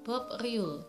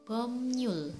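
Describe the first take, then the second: First: The middle consonants sound like b and r. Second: The middle consonants sound like m and n. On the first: The speaker calls it wrong. "Harusnya dibaca Bob Riul" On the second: The speaker calls it right. "yang benar apanya adalah Bomnyul"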